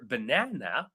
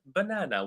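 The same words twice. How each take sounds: First: The stress is on the second syllable. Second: No syllable is stressed more than another. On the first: The speaker calls it right. "It's number two" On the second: The speaker calls it wrong. "with no stress"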